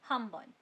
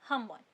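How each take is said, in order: The two takes are said the same way.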